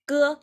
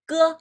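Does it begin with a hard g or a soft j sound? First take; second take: hard g; hard g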